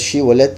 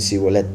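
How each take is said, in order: First: The word begins with an sh sound. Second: The word begins with an s sound. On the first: This is the original form of the word. The speaker calls it right. "la original es Shibolet" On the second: This is a dialect form that changed the original. The speaker calls it wrong. "la pronunciaban como si fuera con Samej"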